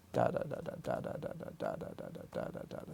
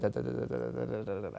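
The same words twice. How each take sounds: First: Soft whispered "da, da" in a steady slow beat; slow pulse syllables. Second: Quick soft "da, da" pushed as fast as the tongue allows; sped-up pulse. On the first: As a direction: tap out four pulses per second with "da". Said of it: "something like that". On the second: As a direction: rattle the "da" faster and faster. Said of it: "But if I could speed that". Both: Shown as a demonstration.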